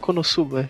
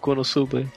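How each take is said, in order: First: It is said in an angry voice. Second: It is said in a drunken, slurred voice. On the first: The scene ended in a fight. "Fala puto" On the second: The scene ended with drinking. "Ou fala bêbado"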